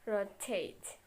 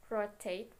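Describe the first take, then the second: First: "rotate" with TATE stressed and falling; stress on last syllable. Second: Said in the usual way. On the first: Shown as a demonstration. Teacher showing a strong last syllable, roTATE stressed. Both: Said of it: "if the last syllable is strong, it is emphasis".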